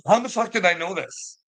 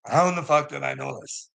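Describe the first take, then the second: First: Exasperated outburst. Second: Said in the usual way. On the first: Retold or imitated. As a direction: pitch jumps much higher on "how in the fuck". Repeats line, first take higher.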